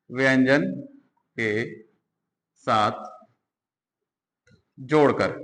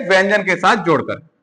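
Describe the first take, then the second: First: व्यंजन, के, साथ, जोड़कर each said apart with long pauses; slow dictation of व्यंजन के साथ जोड़कर; dictating slowly. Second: Said in the usual way. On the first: Shown as a demonstration. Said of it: "dictated word by word". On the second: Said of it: "dictated again word by word".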